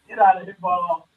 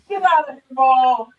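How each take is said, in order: First: It is said flatly, with little feeling. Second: It is said with strong, energetic feeling.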